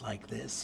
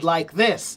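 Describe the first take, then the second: First: It is said quietly and softly. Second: It is said loudly and strongly. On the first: "sometimes are they soft like this" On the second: "sometimes are they loud like this"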